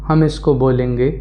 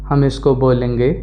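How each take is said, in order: Both takes have the same delivery.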